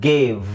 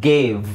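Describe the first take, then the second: The two takes are said the same way.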